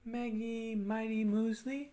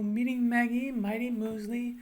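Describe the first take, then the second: First: Slow, sustained humming-style drill phrase; resonance drill. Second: Higher, louder sustained drill phrase; a bit higher. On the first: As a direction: draw out the M words on a held tone. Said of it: "go a little bit higher". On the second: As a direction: push it up and out, holding the tone. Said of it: "go a little bit higher and go". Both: Shown as a demonstration.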